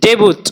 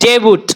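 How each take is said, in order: The two takes are said the same way.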